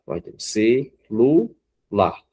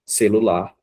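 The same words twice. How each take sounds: First: Celular spoken very slowly as ce-lu-lar with pauses between syllables; split into syllables. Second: Said in the usual way. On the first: Shown as a demonstration. Teacher counting a word's syllables for pupils, slow and separated. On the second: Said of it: "a palavra".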